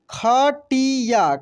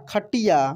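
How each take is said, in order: First: खटिया slowly as kha, ti, yaa; syllable by syllable. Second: Said in the usual way. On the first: Shown as a demonstration. Teacher reading for learners, खटिया slowly syllable by syllable. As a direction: stretch out each syllable of खटिया. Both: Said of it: "अब direct पढ़ते हैं".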